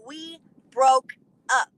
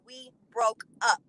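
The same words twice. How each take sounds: First: BROKE and UP split by pauses, louder; emphatic repetition. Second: BROKE UP said slowly and firmly; firm emphasis. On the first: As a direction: punch each word of BROKE UP separately, very slowly. Repeats it word by word. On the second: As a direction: spell out BROKE UP at a measured pace. Firm retort, first take. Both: Retold or imitated.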